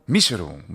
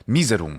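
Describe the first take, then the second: First: It uses the classical Latin pronunciation. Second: It uses the ecclesiastical Latin pronunciation. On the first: "with the classical pronunciation" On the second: "a more medieval style pronunciation, or more accurately, the ecclesiastical pronunciation"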